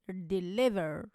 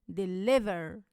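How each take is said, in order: Both takes have the same delivery.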